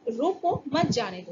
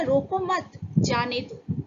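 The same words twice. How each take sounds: First: रोको on its own, then मत जाने दो together; pause after रोको. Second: रोको मत as one phrase, then जाने दो; pause after मत. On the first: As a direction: put the comma break right after रोको. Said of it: "हमने वहाँ पंक्चुएशन में". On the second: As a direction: join मत to रोको and break before जाने दो. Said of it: "लेकिन किसी ने कहा था". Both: Shown as a demonstration.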